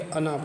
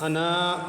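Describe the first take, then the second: First: The final vowel is kept short. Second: The final vowel is drawn out long. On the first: The speaker calls it right. "बल्कि अना पढ़ेंगे" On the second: The speaker calls it wrong. "खींच कर नहीं पढ़ेंगे"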